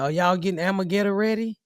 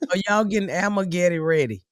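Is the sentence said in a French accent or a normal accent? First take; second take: normal; French. First: It is said in the speaker's normal accent. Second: It is said in a put-on French accent.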